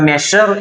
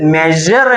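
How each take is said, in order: First: The middle consonant is a voiceless sh sound. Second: The middle consonant is a voiced zh sound. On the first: The speaker calls it wrong. "പല ആളുകളും തെറ്റിച്ചാണ് മെഷർ എന്ന് ഉച്ചരിക്കാറുണ്ട്" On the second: The speaker calls it right. "ശരിക്കും ഉച്ചരിക്കുകയാണെങ്കിൽ മെഷർ എന്നാണ് ഉച്ചരിക്കേണ്ടത്"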